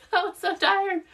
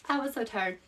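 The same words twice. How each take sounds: First: High, emphatic "I was so tired"; exaggerated tired exclaim. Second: Soft repeat. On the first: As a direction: stretch out "so" in a high voice. Exclaims how tired she was. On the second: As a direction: drop the voice and say it to yourself. Repeats it softly to herself. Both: Real, not acted.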